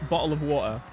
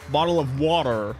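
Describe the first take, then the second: First: It is said with a British accent. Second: It is said with an American accent. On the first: "the normal Brit- British way" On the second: "An American would say"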